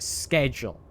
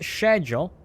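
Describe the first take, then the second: First: "schedule" said as "sked-yool", hard K start. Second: "schedule" said as "shed-yool", soft sh start. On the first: Streamer contrasting for chat, says "schedule" with hard K. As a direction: hit "schedule" with a hard sk sound. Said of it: "With a kinda hard K sound". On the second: Streamer asking chat which way, says "schedule" with soft sh. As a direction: open "schedule" with a soft sh, British style. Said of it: "with a softer C H". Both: Shown as a demonstration.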